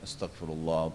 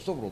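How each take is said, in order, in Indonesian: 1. Kata ini diucapkan pelan dan penuh penekanan. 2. Kata ini diucapkan cepat dan terburu-buru. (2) "bukan astagfirullah astagfirullah astagfirullah"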